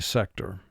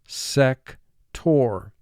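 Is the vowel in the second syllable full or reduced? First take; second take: reduced; full. First: The second syllable has a weak, reduced vowel. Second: The second syllable has a full 'or' vowel. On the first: "in conversation, we normally would say" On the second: "For spelling, let's pronounce it sector"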